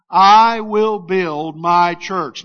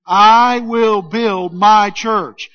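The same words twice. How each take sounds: First: Said in the usual way. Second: Slow, loud, full belief on I; with conviction. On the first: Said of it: "Will you say that with me?". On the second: Shown as a demonstration. Pastor urges the congregation to believe it, slow and loud. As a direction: say it like you mean every word. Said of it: "Now say it like you believe it".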